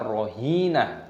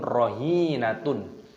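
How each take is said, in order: First: The word ends with a soft h sound. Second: The word ends with a tun syllable. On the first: The speaker calls it right. "maka dibaca rohinah" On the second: The speaker calls it wrong.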